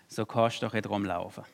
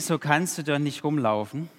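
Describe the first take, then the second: First: It is spoken in a Swabian dialect. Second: It is spoken in a Vogtland dialect. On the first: "der spricht Schwäbisch" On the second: "auch Vogtländisch"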